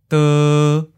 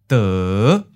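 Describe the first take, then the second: First: The pitch stays mid and level. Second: The pitch starts low and rises. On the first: "Seventh tone, mid flat" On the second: "Fifth tone, low rising"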